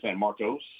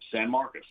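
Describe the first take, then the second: First: The last syllable has a full 'oh' vowel. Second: The last syllable has a reduced 'uh' vowel. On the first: The speaker calls it wrong. "A lot of people say San Marcos" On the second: The speaker calls it right. "It's Marcus, like with a U"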